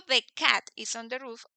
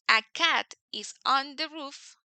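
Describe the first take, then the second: First: Said in the usual way. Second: A cat is on the roof, said slowly; slow teacher example; slow demo sentence. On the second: Shown as a demonstration. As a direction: stretch each word of the example. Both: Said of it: "si yo digo".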